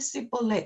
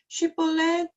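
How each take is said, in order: First: The word begins with an s sound. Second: The word begins with a sh sound. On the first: "쉬 발음을 못하고 쓰" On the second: "쉬 발음"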